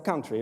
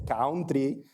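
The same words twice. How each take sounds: First: The word is said with a standard accent. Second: The word is said with a thick foreign accent. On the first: "instead of country" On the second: "they say country instead of"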